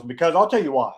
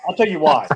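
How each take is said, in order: First: Said in the usual way. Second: Louder, fired-up repeat of I'll tell you why; getting excited. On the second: Real, not acted. Telling Steven about the commission, louder and fired up. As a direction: punch it as the excitement takes over. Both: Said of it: "I'm getting excited about this".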